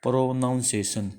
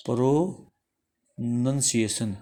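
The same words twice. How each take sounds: First: Said in the usual way. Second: प्रोनंसिएशन drawn out slowly, each syllable separate: pro-nun-si-e-shan; teacher slowly sounding out प्रोनंसिएशन. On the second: Shown as a demonstration. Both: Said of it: "प्रोनाउंसिएशन का उच्चारण हम कैसे करेंगे".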